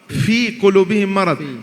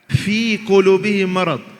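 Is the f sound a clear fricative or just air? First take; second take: just air; just air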